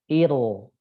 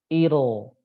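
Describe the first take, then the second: The two takes are said the same way.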